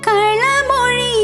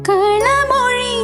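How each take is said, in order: The two takes are said the same way.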